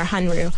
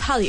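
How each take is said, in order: First: The middle consonants sound like N then R. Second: The middle consonant sounds like a double L. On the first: "it's actually more Hanru" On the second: "what kept coming up was Hallyu"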